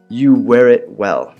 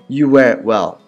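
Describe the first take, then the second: First: It is said very slowly. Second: It is said at normal speed.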